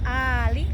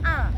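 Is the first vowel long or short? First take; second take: long; short. First: The first vowel is held for two beats. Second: The first vowel is cut short. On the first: The speaker calls it right. "A-nya dua ketukan" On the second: The speaker calls it wrong. "Jangan Al"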